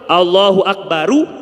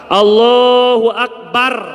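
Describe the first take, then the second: First: The final r is followed by a u vowel. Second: The final r carries no vowel. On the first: "mestinya dibacanya domah" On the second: "dengan sukun"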